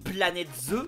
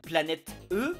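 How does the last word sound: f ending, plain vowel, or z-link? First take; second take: z-link; plain vowel. First: A z sound links into the last vowel. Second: The last word is a bare vowel, unlinked. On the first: The plural is marked on both words. The speaker calls it right. "il y a un S à planète, faut faire la liaison" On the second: The eggs are treated as several eggs. The speaker calls it wrong. "c'est au pluriel"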